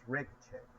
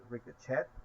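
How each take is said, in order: First: It ends with an 'ay' sound. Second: It ends with an 'et' sound. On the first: "and in English is" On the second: "accent in Spanish is"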